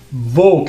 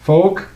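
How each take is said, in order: First: The word begins with a v sound. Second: The word begins with an f sound. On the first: The speaker calls it wrong. "Very common mistake that people would say it's it's Volk" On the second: The speaker calls it right. "Folk with a, with an F as in as in fan"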